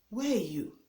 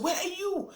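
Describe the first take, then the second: First: It is said calmly in a polite way. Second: It is shouted in an angry, demanding way.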